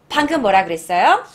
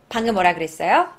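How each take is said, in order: No difference in how they are said.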